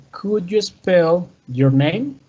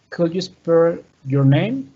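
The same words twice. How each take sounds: First: "Could you spell your name?" spoken slowly and clearly; slow model sentence. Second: Said in the usual way. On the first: Shown as a demonstration. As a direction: read it slowly for learners. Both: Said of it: "we have the example".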